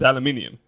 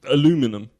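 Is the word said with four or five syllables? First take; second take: five; four. First: The word has five syllables, British style. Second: The word has four syllables, American style. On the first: This is the original British form. The speaker calls it right. "No, it's aluminium" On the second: This is how Americans say it. The speaker calls it wrong. "they go... It's like aluminum"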